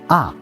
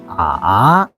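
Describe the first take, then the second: First: The pitch falls sharply from high to low. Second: The pitch dips low then rises again. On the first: "Last tone going down" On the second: "Third tone is curved"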